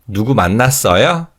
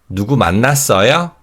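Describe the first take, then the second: The two takes are said the same way.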